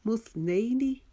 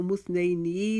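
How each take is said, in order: First: मुस्नैनी with held "nai", quick "ni"; correct short ending. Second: मुस्नैनी with a dragged final "nee"; wrong-way demo, "musnai-neee"; mispronounced long ending. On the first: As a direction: chant "musnaai-ni", higher, short last vowel. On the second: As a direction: lengthen the last vowel of मुस्नैनी. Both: Shown as a demonstration. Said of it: "इसको मुस्नैनी नहीं पढ़ेंगे".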